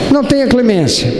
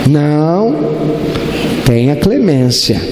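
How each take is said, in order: First: It is said as an exclamation, no pause. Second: There is a pause after the first word. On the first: Show no mercy. "Ou uma exclamação" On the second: Please show mercy. "Ou pode mudar a sentença"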